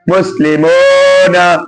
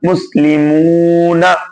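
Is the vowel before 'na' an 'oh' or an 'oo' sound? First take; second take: oh; oo. First: The vowel before 'na' is an 'oh' sound. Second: The vowel before 'na' is a long 'oo'. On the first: The speaker calls it wrong. "ये गलत हो जाएगा" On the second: The speaker calls it right. "खींच गई एक अलिफ के बराबर। और मारूफ पढ़ेंगे इसको"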